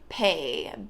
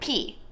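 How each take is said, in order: First: The vowel sounds like 'ay' in 'day'. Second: The vowel sounds like 'ee' in 'see'. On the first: "I don't know why I'm pronouncing like pay" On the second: "instead of like p"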